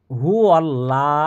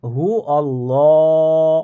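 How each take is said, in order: First: হু আল্লাহ with a light thin ল; wrong thin lam. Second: হু আল্লাহ with a full heavy ল, slowly drawn; heavy lam. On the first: Teacher shows the common mistake, thin lam. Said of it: "এই লামকে লা বলবেন না". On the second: Teacher shows the correct heavy lam, drawn out. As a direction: stretch আল্লাহ and darken its lam. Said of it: "কি হবে? ... ল হবে". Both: Shown as a demonstration.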